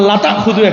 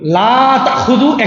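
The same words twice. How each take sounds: First: The vowel in 'la' is kept short. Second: The vowel in 'la' is drawn out long. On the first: The speaker calls it wrong. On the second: The speaker calls it right.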